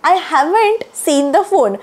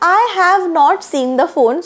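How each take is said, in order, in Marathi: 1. 'Have not' एका अक्षरात छोटे केले जाते. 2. 'Have not' दोन वेगळ्या शब्दांसारखे म्हटले जाते. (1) "हॅव नॉटच्या ऐवजी तुम्ही हॅवंट असं पण म्हणू शकता" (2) "I हॅव नॉट seen the phone सुद्धा बरोबर आहे"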